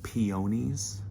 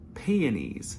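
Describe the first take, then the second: First: It is the Southern pronunciation of the word. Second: It is the Northern pronunciation of the word. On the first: This is how people in the South say it. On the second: This is how people in the North say it.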